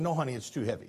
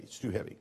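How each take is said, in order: First: Put-on softly, a father calming his little boy; gentle dad refusal. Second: "It's too heavy" dropped much lower and softer, almost hushed; softer gentle repeat. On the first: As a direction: kind no to the child, softer. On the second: Retold or imitated. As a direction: say it again, fading to a hush. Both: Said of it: "I said".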